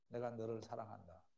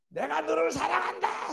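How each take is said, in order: First: It is said softly and gently. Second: It is shouted loudly. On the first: The listener takes it as affection. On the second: The listener takes it as hatred.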